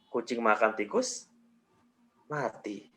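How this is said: There is a pause after "tikus". "Jeda berikutnya setelah tikus"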